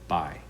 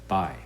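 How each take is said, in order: The two takes are said the same way.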